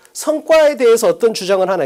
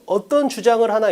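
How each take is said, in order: First: 성과 punched at the start, the rest falling; stress on 성과. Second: "어떤 주장을 하나" read with weight on 어떤; stress on 어떤. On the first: Teacher showing how student A reads for the keyword, stressing 성과. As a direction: hit 성과 hard before "어떤 주장을 하나". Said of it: "선택지를 먼저 보면서". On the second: Teacher showing how student B reads for any claim, stressing 어떤. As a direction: lean on 어떤, then let the rest fall. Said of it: "B는 이걸 읽을 때 어떻게 읽어". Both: Shown as a demonstration.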